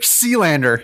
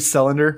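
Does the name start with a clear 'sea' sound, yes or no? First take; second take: yes; no. First: The name begins with a clear 'sea' sound. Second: The name begins without a clear 'sea' sound. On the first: This version sounds cooler and more nautical. "I'm going to just say it the cool way" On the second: This is probably the actual pronunciation. "It's probably Sealander"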